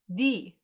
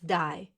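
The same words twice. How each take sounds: First: The vowel sounds like 'ee', as in German. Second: The vowel sounds like 'eye', as in English. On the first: The speaker calls it right. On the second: The speaker calls it wrong.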